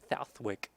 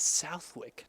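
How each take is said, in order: First: The word is said with a TH sound. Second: The word is said without a TH sound. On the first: The speaker calls it wrong. "trying to go for a T H sound" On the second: The speaker calls it right. "it's Southwick"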